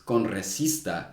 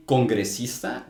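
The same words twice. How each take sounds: First: "congresista" with the G dropped, like "conresista"; imitated mispronunciation. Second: "congresista" with the G clearly sounded; correct pronunciation. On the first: Reviewer mimics the debater's slip, "congresista" without its G. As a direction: leave out the G in "congresista". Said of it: "supposed to be a G in there". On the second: Shown as a demonstration. Reviewer shows the word the debater intended, "congresista" with its G. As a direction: pronounce the G after the N in "congresista". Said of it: "he wanted to say congresista".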